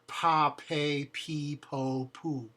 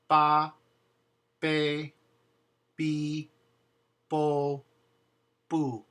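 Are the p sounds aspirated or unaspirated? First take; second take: aspirated; unaspirated. First: The p sounds have a puff of air. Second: The p sounds have no puff of air. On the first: The speaker calls it wrong. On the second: The speaker calls it right.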